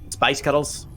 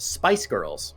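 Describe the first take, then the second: First: It is said in a Glaswegian Scottish accent. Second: It is said in a plain, non-Scottish accent. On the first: "and then you sound Glaswegian" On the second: "I can say the word Spice Girls"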